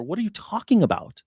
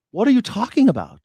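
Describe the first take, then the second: First: Said in the usual way. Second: Higher, louder outraged repeat; exasperated yell. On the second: Real, not acted. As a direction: hurl the question in disbelief.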